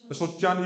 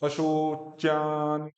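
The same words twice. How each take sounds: First: The word is said quickly. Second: The word is said slowly and carefully. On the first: "ये तो जल्दी बोल रहे हैं" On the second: "शुद्ध उच्चारण क्या होगा?"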